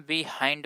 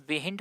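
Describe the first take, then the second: First: "बिहाइंड" with an eye vowel in the last syllable; correct pronunciation. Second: "बिहिंड" with a short i in the last syllable; wrong pronunciation. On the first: Teacher showing students how behind is read, correct long-i pronunciation. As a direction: say "बिहाइंड", ending like "हाइंड". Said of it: "इसको हम बिहाइंड पढ़ते हैं". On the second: Teacher asking if anyone ever misread behind, wrong short-vowel pronunciation. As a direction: say "बिहिंड", ending like Hindi "हिंद". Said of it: "कभी बिहिंड पढ़े हैं आप". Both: Shown as a demonstration.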